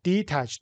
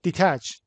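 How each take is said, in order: First: "detach" in two beats, de-tach; syllable by syllable. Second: Said in the usual way. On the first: Shown as a demonstration. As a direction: sound out "detach" softly by syllable. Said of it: "دو تا". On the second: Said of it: "How many syllables are there".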